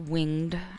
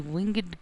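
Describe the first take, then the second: First: The G sound in the word is dropped. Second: The G sound in the word is pronounced.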